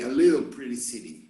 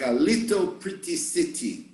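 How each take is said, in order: First: The T sounds are said like quick R sounds. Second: The T sounds are clear T sounds. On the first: "In the United States, they would certainly say" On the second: "they say like"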